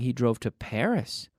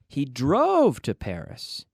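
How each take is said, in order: First: The stress falls on the word Paris. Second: The stress falls on the word drove. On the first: The place is the new information. "So I'm emphasizing Paris" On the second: The way of travelling is the new information. "you could say, how did he get to Paris?"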